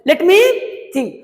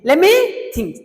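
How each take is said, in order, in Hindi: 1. let में t साफ़ बोला गया है। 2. let का t छोड़ दिया गया है, जिससे lemme बनता है।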